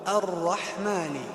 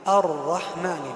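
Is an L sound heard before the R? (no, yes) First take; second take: no; no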